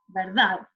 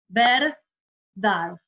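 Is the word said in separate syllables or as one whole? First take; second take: whole; separated. First: The word is said whole without a break. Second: The syllables are said apart with a break. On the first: Only the stressed syllable stands out. The speaker calls it right. "tenemos que decir la palabra completa" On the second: Every syllable seems to carry the stress. The speaker calls it wrong. "no separen en sílaba, no digan verdad"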